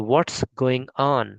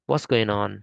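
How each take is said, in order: First: "what's" long and falling; slow American model. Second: Said in the usual way. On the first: Shown as a demonstration. Teacher modelling the American pronunciation. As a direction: drawl it slowly like an American. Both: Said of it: "ऐसे pronounce कर सकते हैं".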